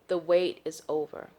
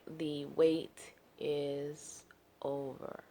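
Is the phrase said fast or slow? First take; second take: fast; slow. First: The phrase is said at a quick pace. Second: The phrase is said at a slow, drawn-out pace. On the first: The speaker calls it wrong. "And it was not that quick" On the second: The speaker calls it right. "It was more like"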